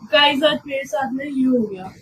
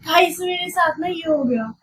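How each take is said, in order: First: It is said in a sad, low tone. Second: It is said in a happy, cheerful tone.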